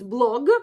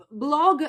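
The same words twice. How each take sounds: First: Said in the usual way. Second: "blog" drawn out the Russian way; slow "blog" with a Russian accent; Russian pronunciation. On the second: Shown as a demonstration. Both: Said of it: "blog is blog".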